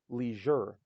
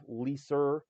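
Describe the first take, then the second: First: The middle consonant is a zh sound. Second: The middle consonant is not a zh sound. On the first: The speaker calls it right. "it's leisure. That's the zh sound" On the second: The speaker calls it wrong. "It's not leaser"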